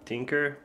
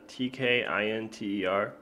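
First: It is said like tinker, no separate tee. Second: It starts with a separate tee sound. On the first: The speaker calls it wrong. "I just call it tinker, but it's not pronounced like that" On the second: The speaker calls it right. "It's a tkinter"

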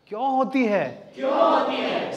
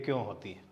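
First: The question is said with strong emotional intensity. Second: The question is said flatly without emotional intensity. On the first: The meaning and feeling reach the audience. The speaker calls it right. "वो intensity भी clear हो" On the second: The meaning does not reach the audience. The speaker calls it wrong. "इसमें meaning है कुछ?"

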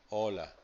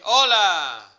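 First: It is said in a neutral, level tone. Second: It is said as an exclamation, pitch rising.

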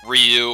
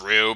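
First: The name is said with a 'y' glide. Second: The name is said without a 'y' glide. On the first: This is not the official pronunciation. The speaker calls it wrong. "not Ryu" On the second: This is the official pronunciation. The speaker calls it right. "I'm going to pronounce it as Rue"

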